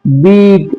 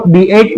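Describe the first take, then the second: First: बीट as one word with a long ee and silent a; correct reading. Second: बी एट read as two separate letters, bee then ett; wrong split reading. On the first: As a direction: say बीट smoothly, one syllable. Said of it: "ए क्या रहेगा यहाँ पे? Silent". (सही उच्चारण, लंबी ई के साथ बीट) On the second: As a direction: spell it out wrongly as बी एट. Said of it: "इसको बी एट नहीं पढ़ना है". (गलत उच्चारण, अलग अलग बी एट) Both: Shown as a demonstration.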